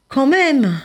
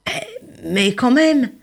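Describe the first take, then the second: First: Higher, louder insistent protest; insist, unwilling; mild mock indignation; reluctant protest. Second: Slow drawn-out grumbling protest; mild hammed-up reluctance; reluctant protest. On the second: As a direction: hold on, not so fast. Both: Rainbow fish protesting.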